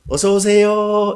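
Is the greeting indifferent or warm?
warm. The greeting sounds warm and heartfelt.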